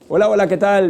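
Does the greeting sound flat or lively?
flat. The voice sounds flat and unenthusiastic. The greeting is not believable. The speaker calls it wrong. "¿Será que me lo pueden creer? No"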